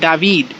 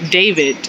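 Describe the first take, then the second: First: The name is said with a foreign pronunciation. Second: The name is said with familiar English pronunciation. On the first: The way the students themselves say it. "but they pronounce it David" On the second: The name as it looks when written. "names like you know David"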